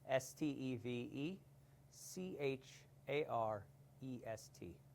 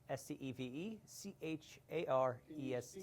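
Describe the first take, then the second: First: It is spelled out slowly. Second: It is spelled out at normal speed.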